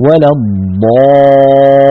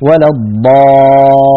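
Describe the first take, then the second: First: الضا with the alif pressed up to the palate, very slow; emphatic alif. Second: الضا with the alif wrongly thin, slow. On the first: Teacher models the correct emphatic alif. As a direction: darken the alif of الضا fully. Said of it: "بضغط الصوت إلى أعلى". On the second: Teacher imitates the wrong thin alif after dad. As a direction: say الضا with a light front a. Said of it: "هذه ألف مرققة". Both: Shown as a demonstration.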